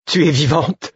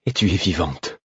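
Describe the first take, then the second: First: High, amazed exclamation; joyful cry. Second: Subdued wonder, falling at the end. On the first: Man finding his lost friend alive, crying out. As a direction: cry out with relief, voice soaring. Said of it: "m'écriai-je". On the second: Relieved repeat to found friend. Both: A narrator's reading.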